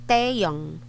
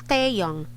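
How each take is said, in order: Both takes have the same delivery.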